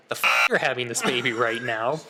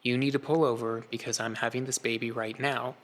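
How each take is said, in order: First: Stunned echo, louder than the calm line; incredulous. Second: Understated, unhurried and matter-of-fact; calm. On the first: Husband's inner reply to his wife in labor, incredulous. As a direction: blurt it in disbelief, rising at the end. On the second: Wife to husband between contractions, very calm. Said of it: "she just very calmly looked over at me and said". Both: Retold or imitated.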